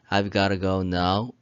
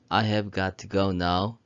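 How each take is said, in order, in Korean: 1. 'I have'는 한 음절로 줄여서 말해요. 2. 'I have'는 두 단어를 모두 온전하게 말해요.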